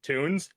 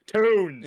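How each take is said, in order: First: Said in the usual way. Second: "tunes" loud and high, a rounded "toons"; hammed-up, louder "tunes" with a long oo; exaggerated pronunciation. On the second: Shown as a demonstration. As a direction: belt out "tunes" as an exclamation. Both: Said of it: "How do you want me to say it?".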